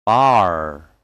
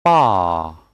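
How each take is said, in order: First: "Bar" with the R sounded; American pronunciation. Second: "Bar" with long "ah", silent R; British pronunciation. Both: Shown as a demonstration. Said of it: "And American English will be".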